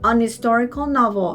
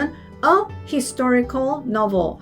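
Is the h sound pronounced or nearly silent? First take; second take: nearly silent; pronounced. First: It is said in an American accent, h weakened. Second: It is said in a British accent, h pronounced.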